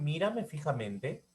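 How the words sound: The voice rises at the end.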